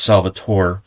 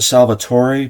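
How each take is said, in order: First: The name is said with English pronunciation. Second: The name is said with Italian pronunciation. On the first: Other people say it this way. "other people have said it's Salvatore" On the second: The speaker's own preferred way of saying it. "I pronounce it Salvatore because it's Italian"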